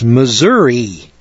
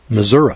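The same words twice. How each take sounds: First: The word ends in an 'ee' sound. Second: The word ends in an 'uh' sound. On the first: This is how people from the West say it. "when we see M-I-S-S-O-U-R-I, that's Missouri" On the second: This is how locals in the state say it. "we'd spell it M-I-S-S-O-U-R-A"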